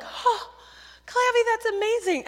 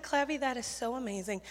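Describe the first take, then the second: First: High, loud burst of awe; excited kids. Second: Soft, sincere praise; sincere affirmation. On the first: Campers cheering Clavy's calling, excited kids. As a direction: imitate kids gasping and cheering in amazement. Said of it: "Kids don't care. They're like". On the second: Camp leader affirms Clavy's missionary calling, sincere affirmation. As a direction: affirm the child softly and earnestly. Her own calmer reply to Clavy. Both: Retold or imitated.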